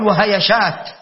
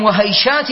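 First: وهيشات as wa-ha-ya-shāt, a after y; wrong added vowel. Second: وهيشات as wa-hay-shāt, y unvowelled; correct diphthong. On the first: Teacher shows what not to say, وهيشات as wa-ha-ya-shāt. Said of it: "ولا تقل وهيشات". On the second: Teacher quotes an example saying, وهيشات as wa-hay-shāt. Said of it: "وهكذا في الياء هيشات". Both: Shown as a demonstration.

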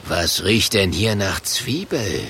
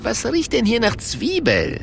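First: Suspicious low monster voice; gruff Murk voice. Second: Higher, lighter innkeeper voice; Luigi voice. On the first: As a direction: sniff around, suspicious and gruff. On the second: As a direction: ask it like a puzzled barkeeper. Luigi sniffs the onion smell. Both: A narrator's reading.

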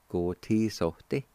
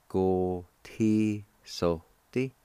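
First: Said in the usual way. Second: "Go ti so te" slowly, each syllable held; slow sounding-out. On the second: Shown as a demonstration. Teacher models the word kindle for learners, slowly syllable by syllable. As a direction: stretch out every syllable of "Go ti so te". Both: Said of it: "It's pronounced like this".

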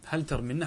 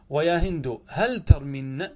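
First: Said in the usual way. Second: Slow model take. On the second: Shown as a demonstration.

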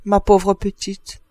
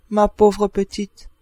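First: Slow, pitying murmur; a slow, gentle lament for the poor girl. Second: Slow, pitying repeat. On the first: (avec pitié, lentement) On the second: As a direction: say it again slowly, full of pity. (avec pitié, répété lentement) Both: A narrator's reading. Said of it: "puis elle reprit avec pitié".

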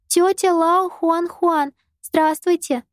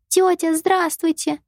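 First: Put-on high, slow careful child greeting; a small girl correcting herself politely; little girl voice. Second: Put-on high, slow polite child greeting; a small girl saying hello sweetly; little girl voice. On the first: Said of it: "Юйшаго поправилась". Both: A narrator's reading.

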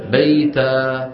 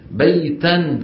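First: بيتا stopped as beita, tanween dropped to a long a; stopping on alif. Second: بيتا said beitan, nunation voiced at the end; with tanween. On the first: Teacher showing class how to stop on the word, alif ending. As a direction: drop the nun in بيتا and hold the alif. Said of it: "بإبدال تنوين النصب ألفا". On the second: Teacher showing the word before stopping, with nunation. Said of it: "كيف توقف عليها؟". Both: Shown as a demonstration.

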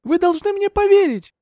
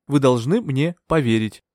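First: Very high, urgent plea; high-pitched, agitated insistence; desperate plea. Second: Slow, measured reassurance; composed doctor's assurance; calm persuasion. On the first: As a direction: beg to be believed at a high pitch. Heroine desperate to be believed. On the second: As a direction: persuade him slowly and steadily. Doctor calmly persuades Bertram. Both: A narrator's reading.

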